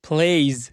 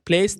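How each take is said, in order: First: The word ends with a z sound. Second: The word ends with an s sound. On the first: The speaker calls it right. "এটা জ sound হবে" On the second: The speaker calls it wrong. "প্লেস না"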